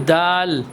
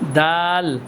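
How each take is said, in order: Both takes have the same delivery.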